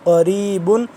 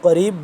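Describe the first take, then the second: First: The word ends with a nasal 'un' ending. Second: The word stops on a bouncing 'b' sound. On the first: The reciter continues without stopping. "बा दो पेश बुन" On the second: The reciter stops at the end of the verse. "आगे वक्फ़ हो जाएगा तो करीब, बा साकिन हो जाएगा तो क्या हो जाएगा यहाँ पे क़लक़ला"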